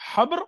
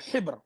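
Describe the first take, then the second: First: The first vowel is an open 'a' sound. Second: The first vowel is a close 'i' sound. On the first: "nous pouvons dire habr ou hibr" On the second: "nous pouvons dire habr ou hibr"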